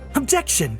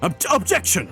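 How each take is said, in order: First: It sounds cute, imitating Ryunosuke. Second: It sounds aggressive, imitating Kazuma.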